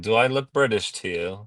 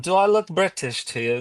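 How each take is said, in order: First: It is said in his normal American accent. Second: It is said in a put-on British accent.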